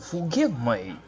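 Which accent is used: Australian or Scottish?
Australian. It is said in an Australian accent. The speaker calls it wrong. "that was Australian"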